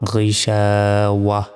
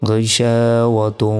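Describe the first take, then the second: First: The word ends in a soft h sound. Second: The word ends in 'tun', running on. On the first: The reader stops after this word. "যদি থামি তাহলে এখানে ছোট হার উচ্চারণ হবে" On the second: The reader continues without stopping. "যদি আমরা না থামতাম"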